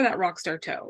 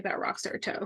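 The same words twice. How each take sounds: First: Said in the usual way. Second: Hushed playful whisper. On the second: Real, not acted. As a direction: breathe it out as a secret aside. Joking aside about her toe.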